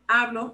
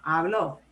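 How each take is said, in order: First: The stress is on the first syllable. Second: The stress is on the last syllable. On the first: Someone is speaking now. "I'm speaking right now" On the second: Someone spoke in the past. "he spoke"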